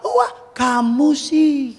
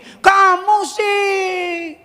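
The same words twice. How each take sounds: First: Mock blaming. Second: Slow, high reproachful drawl; blaming tone. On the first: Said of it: "Enggak, ketika udah jatuh". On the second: Retold or imitated. Father blaming crying son, slow high reproach. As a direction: pin the blame on the child. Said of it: "Saya nggak bilang gini".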